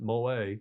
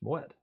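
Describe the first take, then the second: First: The final syllable is drawn out, not sharp. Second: The final syllable is short and sharp. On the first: The speaker calls it wrong. "Americans tend to pronounce it Moet, which is not correct" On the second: The speaker calls it right. "it's very short, sharp on wet"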